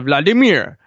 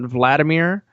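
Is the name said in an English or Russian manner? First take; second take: Russian; English. First: The name is said in a Russian way. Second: The name is said in an anglicized way. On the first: "trying to actually say his name with the, the proper accents" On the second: "People have been talking about Vladimir"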